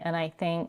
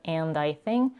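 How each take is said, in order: First: 'And' is reduced to a short n sound. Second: 'And' is fully pronounced with its vowel and d. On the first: "she's reducing and to n, vowel reduction to a schwa, and then she's dropping the d" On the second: "instead of"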